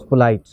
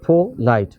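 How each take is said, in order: First: Said in the usual way. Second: पोलाइट broken in two, पो then लाइट; split into syllables. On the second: Shown as a demonstration. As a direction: sound out पोलाइट in two separate beats. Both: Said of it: "अगर दो syllable हों".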